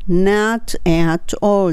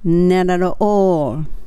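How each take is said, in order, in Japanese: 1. 単語はそれぞれ別々に言われ、tの音がはっきり聞こえます。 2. 単語が続けて言われ、tの音がlのように聞こえます。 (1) "ではなくて" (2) "まるまるで一個の言葉みたいですよね"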